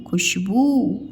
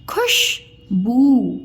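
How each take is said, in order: First: Said in the usual way. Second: Khushboo split slowly into खुश and बू; syllable by syllable. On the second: Shown as a demonstration. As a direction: sound out Khushboo with a pause before बू. (खुशबू को अलग-अलग तोड़कर, धीरे) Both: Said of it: "उच्चारण ऐसे में करके बताया करूँ".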